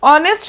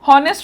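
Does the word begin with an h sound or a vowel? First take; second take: vowel; h sound. First: The word begins with a vowel sound. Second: The word begins with an h sound. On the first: The speaker calls it right. "sound to যে vowel to দি start হৈছে" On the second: The speaker calls it wrong. "honest তো নহয়"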